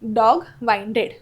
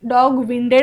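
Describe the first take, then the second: First: The first vowel sounds like in 'wine'. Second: The first vowel sounds like in 'win'. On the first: The speaker calls it right. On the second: The speaker calls it wrong.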